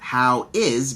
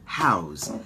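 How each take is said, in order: First: Both words are said in full, separately. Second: The two words merge into one contracted syllable. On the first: "the contraction of that" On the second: "How is becomes how's"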